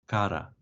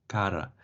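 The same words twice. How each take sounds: The two takes are said the same way.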